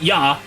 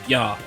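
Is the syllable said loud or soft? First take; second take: loud; soft. First: The syllable is said loud and forceful. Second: The syllable is said small and soft. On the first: The speaker calls it wrong. "So not yeah" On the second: The speaker calls it right. "a much smaller yeah"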